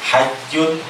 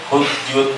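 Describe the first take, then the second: First: The first vowel is an a sound. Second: The first vowel is a u sound. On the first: "Hajjun boleh dibaca hujjun, boleh dibaca hijjun" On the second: "boleh dibaca hujjun"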